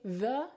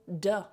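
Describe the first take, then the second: First: It begins with a soft th sound. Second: It begins with a hard d sound. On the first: The speaker calls it right. "You go to say the" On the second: The speaker calls it wrong. "you automatically default to duh"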